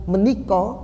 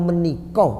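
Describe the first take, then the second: The two takes are said the same way.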